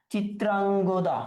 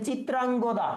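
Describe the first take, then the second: First: Chitrangada said slowly, syllable by syllable, for notes; slow dictation. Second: Said in the usual way. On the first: Shown as a demonstration. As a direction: spell out Chitrangada slowly so students can write it.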